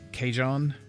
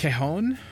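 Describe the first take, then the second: First: The middle consonant sounds like an English 'j'. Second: The middle consonant sounds like an English 'h'. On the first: The speaker calls it wrong. "I can never pronounce that" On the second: The speaker calls it right. "I think the J is a H sound"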